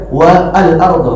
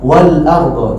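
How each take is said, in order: First: An extra 'a' vowel is kept before 'al'. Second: The words run together without the extra vowel. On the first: The speaker calls it wrong. "jangan dibaca" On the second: The speaker calls it right. "kalau teman-teman baca dengan huruf huruf sebelumnya maka"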